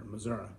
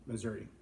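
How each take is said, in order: First: Missouri ending in "uh", as "Missoura"; "Missouri" with a final schwa instead of "ee"; local pronunciation. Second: Said in the usual way. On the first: Shown as a demonstration. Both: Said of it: "if you're from there".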